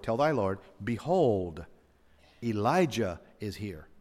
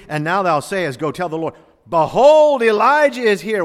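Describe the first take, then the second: First: Said in the usual way. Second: Higher and louder, peaking on behold; building proclamation. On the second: Shown as a demonstration. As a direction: cry out behold like a herald. Third reading, building to proclamation.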